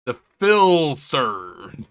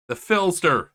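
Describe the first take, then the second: First: "Philster" stretched very slowly and loudly; drawn-out nickname. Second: Said in the usual way. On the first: Acted. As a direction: draw out "Philster" like a hammy announcement. Announces nickname, drawn-out take.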